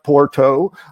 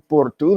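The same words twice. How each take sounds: First: It is said with an English pronunciation. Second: It is said with a Portuguese pronunciation. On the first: The speaker calls it wrong. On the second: The speaker calls it right. "using a Portuguese pronunciation"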